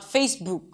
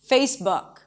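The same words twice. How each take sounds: First: The vowel in book is long, as in food. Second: The vowel in book is short, as in look. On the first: The speaker calls it wrong. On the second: The speaker calls it right.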